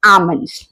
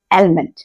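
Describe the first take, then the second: First: आमंड्स with a silent L, said "aa-mands"; आमंड्स with no L sound; correct pronunciation. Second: आलमंड with the L sounded, "al-mand"; the common mistake, L fully sounded in आलमंड; wrong pronunciation. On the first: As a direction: say आमंड्स dropping the L. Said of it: "आप बोलेंगे आमंड्स". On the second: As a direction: say आलमंड voicing the L. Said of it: "ना कि आलमंड". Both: Shown as a demonstration.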